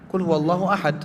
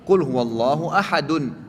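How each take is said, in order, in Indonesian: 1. Kata terakhir berakhir pada konsonan mati. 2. Kata terakhir berakhir dengan vokal penuh.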